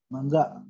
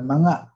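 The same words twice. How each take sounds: First: "Mangga" with a sounded hard g; corrected pronunciation. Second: "manga" with no hard g; wrong form shown. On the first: Teacher repeats the right form, "Mangga" with hard g after ng. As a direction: say "Mangga" as mang-ga. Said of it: "Mangga gitu ya". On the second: Teacher warns against mistake, "manga" with ng alone. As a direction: say "manga" as ma-nga, a bit louder. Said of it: "Bukan manga". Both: Shown as a demonstration.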